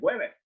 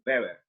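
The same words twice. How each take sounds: First: The name begins with a W sound. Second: The name begins with a V sound. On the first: This is how it would be said in English. The speaker calls it wrong. "en inglés, Weber es Weber" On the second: This is how it is said in German. The speaker calls it right. "es alemán, entonces la pronunciación es Weber"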